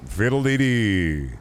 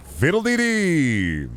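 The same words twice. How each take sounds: First: Slow, drawn-out catchphrase, less high; catchphrase bit. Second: Long, high, drawn-out cry; catchphrase bit. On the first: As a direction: stretch it out at a modest pitch, falling away. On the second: Streamer going into a catchphrase bit, high drawn-out catchphrase. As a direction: sing it out high and stretched, then fall. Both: Acted. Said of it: "And I be going".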